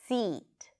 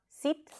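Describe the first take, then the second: First: The vowel is long and tense. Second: The vowel is short and lax. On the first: The speaker calls it right. "but seat" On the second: The speaker calls it wrong. "So it's not seat"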